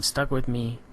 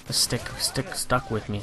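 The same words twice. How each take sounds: First: Said in the usual way. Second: Tripping over the words; stumbling on stick, stuck; stutter. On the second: Real, not acted. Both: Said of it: "stuttering like a fool there".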